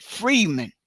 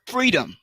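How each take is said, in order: First: "freeman", the -dom turned into -man; mispronounced freedom. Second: Said in the usual way. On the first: Shown as a demonstration. Showing how the word freedom got changed, "freeman" as a mispronunciation. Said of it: "but they pronounced it freeman". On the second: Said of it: "They were trying to pronounce the word".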